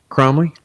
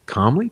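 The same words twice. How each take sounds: First: Cromley with an R after the K, as "Krom-ley"; Cromley said with the R clearly sounded; saying Cromley. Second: Comley with no R, as "Com-ley"; Comley said without any R sound; saying Comley. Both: Shown as a demonstration.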